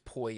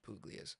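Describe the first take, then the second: First: The name is said in two short syllables. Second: The name is said in three full syllables. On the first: This is the family's own Italian way of saying it. "the whole it's Poya" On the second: This is how most people say it. "Everyone says Puglias though, so I just refer to it as Puglias"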